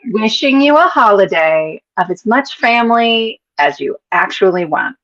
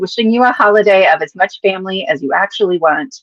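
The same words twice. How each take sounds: First: The sentence is read at a slower pace. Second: The sentence is read at a normal, quicker pace.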